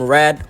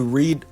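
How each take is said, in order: First: The vowel is short, as in bed. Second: The vowel is long, as in need. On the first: It is the past tense of the verb. "comme read au passé" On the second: It is the present tense of the verb. "read au présent"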